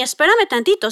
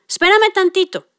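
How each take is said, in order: First: Said in the usual way. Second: Espérame said higher, with a fall; busy mom. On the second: Retold or imitated. Mother putting off her son, Espérame higher and falling. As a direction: brush off with Espérame tantito, higher.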